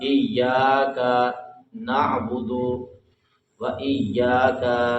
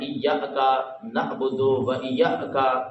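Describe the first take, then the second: First: It is read calmly and smoothly. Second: It is read with an abrupt jerk. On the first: The speaker calls it right. "बड़े आराम और सुकून से पढ़ना है" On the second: The speaker calls it wrong. "यहाँ पे झटका मारना ... ये गलत है"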